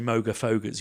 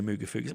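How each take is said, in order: First: The first vowel sounds like 'oh'. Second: The first vowel sounds like 'oo'. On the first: The speaker calls it wrong. "you don't say Moga Fogas" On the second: The speaker calls it right. "you say Mooga Fugas"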